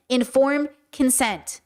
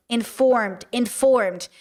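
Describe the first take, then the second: First: Informed said slowly, leaning hard on the word; slow down and land on Informed consent; stress on informed. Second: Informed, informed: each one hit and falling; repeated stress on informed. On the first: Making a point to listeners: informed stressed slowly. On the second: Driving the point home to listeners: informed, informed stressed. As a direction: hammer the word Informed twice with falling tune. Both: Shown as a demonstration.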